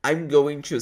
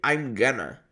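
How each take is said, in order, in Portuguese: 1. Cada palavra é dita completa e separadamente. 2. As palavras se juntam numa forma reduzida. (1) "você não vai ouvir I'm going to" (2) "você vai ouvir I'm gonna"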